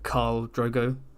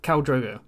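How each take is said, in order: First: The first name has a long vowel, like 'Carl'. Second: The first name has a short vowel, like 'Cal'. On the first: The speaker calls it wrong. "I genuinely thought his name was like Carl Drogo" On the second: The speaker calls it right. "It should be Cal, right?"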